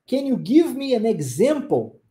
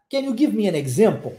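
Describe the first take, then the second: First: "Can you give me an example?" said slowly and clearly; "Can you give me an example?" at a slow, instructional pace; slow teaching model. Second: Said in the usual way. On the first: Shown as a demonstration. Teacher repeats the question slowly for learners.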